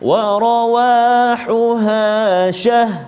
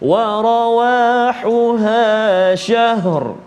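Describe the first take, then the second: First: The last word ends with only an h sound. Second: The last word ends with h then r. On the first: The speaker calls it wrong. "ra hilang" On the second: The speaker calls it right. "ada bunyi ha dan ada bunyi ra"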